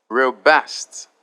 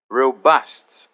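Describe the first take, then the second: No difference in how they are said.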